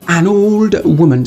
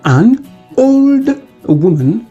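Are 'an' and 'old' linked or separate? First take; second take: linked; separate. First: The n of an runs into old. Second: An and old are said as separate words.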